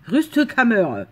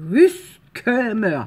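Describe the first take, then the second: First: Louder mock German accent, said in one go. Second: Put-on slow, drawn-out German accent, loud. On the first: Vlogger repeating the German word she found, firm German accent. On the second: Vlogger trying a German word on a plaque, slow German accent. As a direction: sound it out slowly in a mock German accent. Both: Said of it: "ça se prononce avec un accent allemand".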